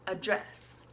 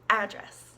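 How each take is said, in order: First: The first vowel is a weak 'uh' sound. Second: The first vowel is a sharp 'a' sound. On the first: It is the verb, to speak to someone. "like a U almost" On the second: It is the noun, a place where someone lives. "with a very sharp A, like as an apple"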